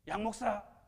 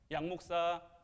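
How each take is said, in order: First: The name is called in a higher, raised voice. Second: The name is called softly and gently.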